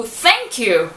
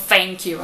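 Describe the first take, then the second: First: "thank" with the tongue between the teeth; careful "thank" with a real TH; proper TH. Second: "thank you" said as "fank you"; TH swapped for an F sound; mock the common "fank you" mistake; wrong TH as F. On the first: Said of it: "tem som de F". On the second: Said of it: "acaba falando thank you". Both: Shown as a demonstration.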